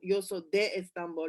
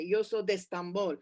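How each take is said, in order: First: The words are kept apart. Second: The words run together. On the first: The speaker calls it wrong. "instead of saying" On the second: The speaker calls it right. "you just join the two"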